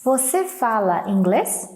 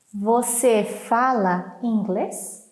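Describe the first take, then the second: First: Said in the usual way. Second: Slow, word-by-word question; slow model reading. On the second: Shown as a demonstration. Teacher repeats the dialogue question for learners, slowly and clearly.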